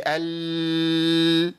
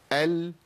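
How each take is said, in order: First: "ال" with the L dragged on and on; over-prolonged lam. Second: "ال" with the L held only briefly, then stopped; moderate-length lam. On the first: Teacher shows students what not to say, L over-stretched. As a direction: let the L of "ال" run far too long. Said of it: "انا عملت رخاوه". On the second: Teacher shows the correct middle timing, short-held L. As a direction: cut the L of "ال" off after a short hold. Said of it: "بس ما تزيدش عن كده". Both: Shown as a demonstration.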